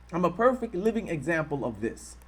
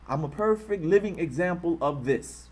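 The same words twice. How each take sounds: The two takes are said the same way.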